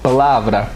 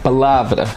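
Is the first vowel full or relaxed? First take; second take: relaxed; relaxed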